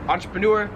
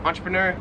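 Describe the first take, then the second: First: "entrepreneur" with "noor" at the end; American pronunciation. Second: "entrepreneur" with "ner" at the end; Australian pronunciation. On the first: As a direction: round the last vowel of "entrepreneur" to oo. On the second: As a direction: relax the last vowel of "entrepreneur" to er. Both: Shown as a demonstration. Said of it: "they pronounce this entrepreneur".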